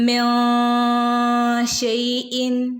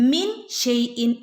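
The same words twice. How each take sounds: First: The n of min is hidden in a nasal sound. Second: The n of min is pronounced fully and clearly. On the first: The speaker calls it right. "മറച്ച് പിടിക്കണം" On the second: The speaker calls it wrong. "എന്നവിടെ ഓതാൻ പാടില്ല"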